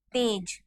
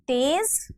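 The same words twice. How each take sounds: First: तेज said as tej, ending in a j sound, softer; तेज meaning radiance, with j; plain tej. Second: तेज said as tez, ending in a z sound; तेज with z, as in the Urdu word for fast; nukta tez. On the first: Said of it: "और बिना नुक्ता वाला तेज". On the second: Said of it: "तो तेज मतलब fast". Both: Shown as a demonstration.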